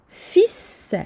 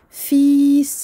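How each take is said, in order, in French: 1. La voyelle est courte, pas allongée. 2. La voyelle est allongée et longue. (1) "la prolongation ici disparaît" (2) "Et non pas ... ça serait un petit peu lourd"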